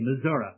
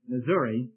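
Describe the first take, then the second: First: It is said the local, native way. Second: It is said the non-local, non-native way. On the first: Natives of the state say it this way. "that are native say Missouri" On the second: The speaker is not from the state. "you can tell I'm not a native Missourian"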